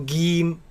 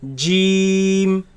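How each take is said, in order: First: The word begins with a hard g. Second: The word begins with a j. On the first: The speaker calls it wrong. "it is incorrect to pronounce it as geem with a g, g sound" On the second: The speaker calls it right. "In the Quran it's pronounced as jeem"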